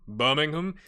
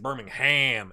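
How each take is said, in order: First: The last syllable is reduced to a weak 'um'. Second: The last syllable is a full, clear 'ham'. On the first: This is how the name is said in England. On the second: This is how the name is said in America.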